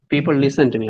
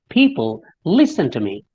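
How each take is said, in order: First: The pitch stays flat across the phrase. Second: The pitch rises and falls across the phrase. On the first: The speaker calls it wrong. "It's not" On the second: The speaker calls it right. "if you listen to me"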